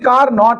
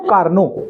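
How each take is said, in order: First: The final t is clearly pronounced. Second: The final t is not pronounced. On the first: The speaker calls it wrong. "लिखते कार नॉट है" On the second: The speaker calls it right. "पढ़ते इसको कार्नो... टी silent रहेगा"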